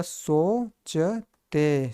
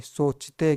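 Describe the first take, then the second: First: "सोचते" split slowly into सो, च, ते; sounded out slowly. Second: Said in the usual way. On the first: Shown as a demonstration. Teacher teaching how सोचते is read, "सोचते" slowly in syllables. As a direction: stretch "सोचते" syllable by syllable, with gaps. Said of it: "इसको पढ़ा". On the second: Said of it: "क्या पढ़ेंगे इसको?".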